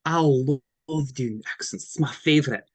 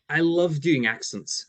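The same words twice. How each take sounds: First: Broad Scottish accent demo. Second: Said in the usual way. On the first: Shown as a demonstration. Showing a co-host a favourite accent, in Scottish. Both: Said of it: "I'll do my Scottish accent".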